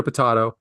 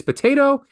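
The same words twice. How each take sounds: First: Potato said puh-TAH-toe. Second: Potato said puh-TAY-toe. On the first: Host rejecting a pronunciation, potato with "tah". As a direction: say potato with an "ah" vowel in the middle. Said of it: "a way of mispronouncing things". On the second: Host insisting on his way, potato with "tay". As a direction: say potato with a long A in the middle. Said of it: "It is potato". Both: Shown as a demonstration.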